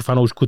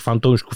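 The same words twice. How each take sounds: First: Said in the usual way. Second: Fantoušků with an extra t, said as fan-tou-šků in jest; mock fantoušků. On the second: Shown as a demonstration. Podcast host teasing film-only Tolkien fans, saying fantoušků with a mocking extra t. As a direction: twist fanoušků into fantoušků with a playful extra t. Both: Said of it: "takzvaných fantoušků".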